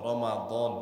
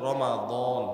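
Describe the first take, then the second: No difference in how they are said.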